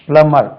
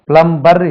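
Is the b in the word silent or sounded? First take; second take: silent; sounded. First: The b sound is left silent in the word. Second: The b sound is pronounced in the word. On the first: The speaker calls it right. "பி உச்சரிக்க கூடாது" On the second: The speaker calls it wrong. "plumber இல்லை"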